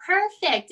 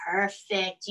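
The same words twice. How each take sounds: First: Higher, louder cheerful Perfect; bright little cheer of Perfect; excited praise. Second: Said in the usual way. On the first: Real, not acted. Praising kids' namaste again.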